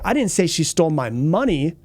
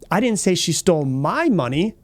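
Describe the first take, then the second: First: The stress falls on the word money. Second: The stress falls on the word my. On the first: She stole something other than money. "She might have taken something else from me, but it wasn't my money" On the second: She stole someone else's money. "It could have been somebody else's money that she stole"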